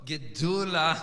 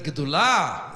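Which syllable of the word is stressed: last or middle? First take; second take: middle; last. First: The stress is on the middle syllable. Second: The stress is on the last syllable. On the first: "that fits the melody" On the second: It follows modern Hebrew pronunciation. "the way you say it in modern Hebrew"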